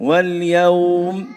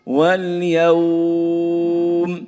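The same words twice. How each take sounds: First: The vowel is held for two counts. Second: The vowel is held for four counts. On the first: "اثنين" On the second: "أربعة"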